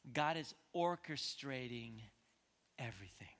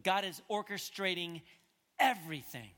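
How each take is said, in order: First: Hushed emphasis. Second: EVERYTHING set apart and punched loud; pause, then hit "everything" hard; forceful emphasis. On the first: Preacher giving the congregation his main point, hushed. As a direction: let "everything" sink almost to a whisper. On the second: Preacher restating his main point to the congregation, forcefully. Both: Real, not acted.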